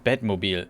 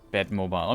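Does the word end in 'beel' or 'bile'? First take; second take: beel; bile. First: The ending is pronounced like 'beel'. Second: The ending is pronounced like 'bile'. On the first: This is the German name. "Do you call it in German? It's Batmobile" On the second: This is the English name. "it's the same in English, I assume"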